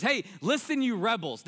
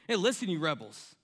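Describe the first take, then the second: First: Higher, louder mock scolding of rebels; angry rebuke. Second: A mild hint of anger, near the speaker's plain voice; restrained angry quote. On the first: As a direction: play Moses losing his temper, voice up and louder. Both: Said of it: "you can hear it in his voice".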